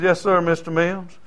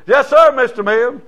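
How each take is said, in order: First: Said in the usual way. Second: Higher, louder eager "Yes, sir, Mister Mims"; hammed-up polite answer to a rich man; deferential. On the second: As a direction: lay on the respect for the millionaire. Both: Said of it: "you always say "Mister" to a millionaire".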